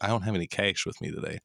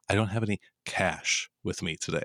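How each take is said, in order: First: The vowel in 'cash' is raised, like 'ay'. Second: The vowel in 'cash' is low and open. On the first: The speaker calls it wrong. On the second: The speaker calls it right.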